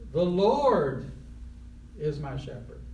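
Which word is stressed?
Lord. The word Lord carries the stress. It is the Lord, no one else, who shepherds. "put the emphasis on Lord"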